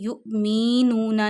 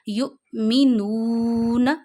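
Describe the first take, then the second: First: The vowel after the m is stretched long. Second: The vowel after the m is kept short. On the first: The speaker calls it wrong. "युमीनूना नहीं है" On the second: The speaker calls it right. "मीम के नीचे ज़ेर नहीं खींचनी"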